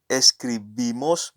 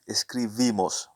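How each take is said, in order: First: The b is said as a hard b. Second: The b is said softly, like a v. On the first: The speaker calls it wrong. "it's not escribimos" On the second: The speaker calls it right. "the B sometimes is pronounced as a V"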